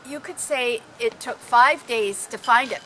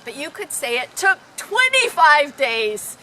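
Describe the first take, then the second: First: Said in the usual way. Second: Teaching how a tall tale stretches the number, stressing "twenty-five". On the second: Shown as a demonstration. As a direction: lean on "twenty-five" to sell the exaggeration. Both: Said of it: "take any story and exaggerate it".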